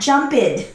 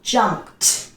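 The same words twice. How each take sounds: First: The ending is a separate 'ed' syllable. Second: The ending is a short 't' sound. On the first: The speaker calls it wrong. "It is not jumped" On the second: The speaker calls it right. "Pronunciation T"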